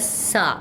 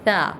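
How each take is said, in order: First: The consonant is hard with a whistling hiss. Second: The consonant is soft with no whistling hiss. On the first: The speaker calls it wrong. "सख्ती से पढ़ेंगे, तो इसमें सीटी का साउंड पैदा होगा" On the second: The speaker calls it right. "नरमी से पढ़ने वाला"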